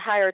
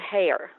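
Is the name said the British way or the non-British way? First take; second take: non-British; British. First: The name is said the non-British way. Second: The name is said the British way. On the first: The speaker calls it wrong. "I always pronounced it Heyer, too, and then when I was in England, got firmly corrected" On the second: The speaker calls it right. "the Brits pronounce it Heyer"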